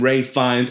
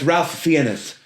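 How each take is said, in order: First: The first name sounds like Rafe, with no L. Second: The first name sounds like Ralph, with an L. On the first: The speaker calls it wrong. "they're calling him Ray Fiennes, and that's not how it's spelt" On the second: The speaker calls it right. "so that's Ralph Fiennes"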